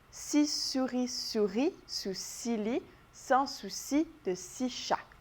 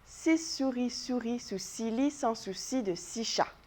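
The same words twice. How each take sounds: First: The sentence is said very slowly. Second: The sentence is said at a moderate speed. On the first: "On va l'essayer ensemble bien lentement" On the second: "on va essayer de le faire un petit peu plus vite"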